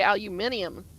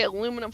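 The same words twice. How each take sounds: First: Aluminium as al-yoo-MIN-ee-um; "aluminium" in five syllables, ending -ee-um; British-style aluminium. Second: Aluminum as uh-LOO-mi-num; "aluminum" in four syllables, no i before the last; American aluminum. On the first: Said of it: "they say aluminium". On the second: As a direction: say aluminum with stress on the second syllable. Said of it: "they don't say aluminum foil". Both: Shown as a demonstration.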